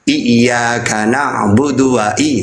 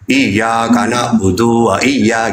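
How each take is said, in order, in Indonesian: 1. Vokalnya dibaca pendek. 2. Vokalnya dipanjangkan. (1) "Padahal yang benar" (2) "biasanya dipanjangin"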